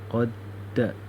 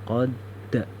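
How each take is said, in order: The two takes are said the same way.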